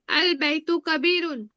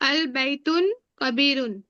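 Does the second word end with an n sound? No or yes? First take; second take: no; yes. First: The second word ends without an n sound. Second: The second word ends with an n sound. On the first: The speaker calls it right. "अल लगा है तो अल बैतू होगा" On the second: The speaker calls it wrong. "बैतुन बोल रही थी तो वो गलत होगा"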